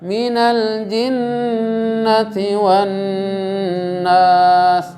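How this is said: The phrase flows in one unbroken breath. The speaker calls it right. "Harus satu kali nafas"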